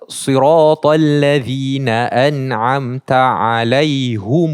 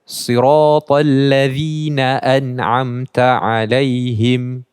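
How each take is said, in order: First: The word ends in -hum with a u vowel. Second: The word ends in -him with a closed m. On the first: "ni dah jadi alaihum" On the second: "baca kasrah dan mimnya dibacakan dengan sukun"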